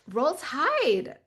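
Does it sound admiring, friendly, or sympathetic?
admiring. It sounds like an admiring compliment.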